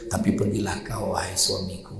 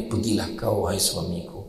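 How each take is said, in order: First: Soft gentle wife. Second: Mock sweet wife. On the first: Retold or imitated. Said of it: "Aisyah kata apa". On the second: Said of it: "orang perempuan donga tu".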